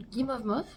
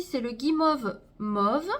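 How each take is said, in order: First: Guimauve Mauve asked with a rising questioning tune; doubtful question. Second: Said in the usual way. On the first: Real, not acted. Vlogger doubting the shade name, rising question. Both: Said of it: "Non, Grunge Mauve".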